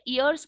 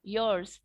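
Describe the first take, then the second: First: The word begins with a bare vowel sound. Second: The word begins with a y sound. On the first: It sounds like the word for ears. The speaker calls it wrong. "ईयर्स की जगह" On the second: It means years. The speaker calls it right. "years बोला है"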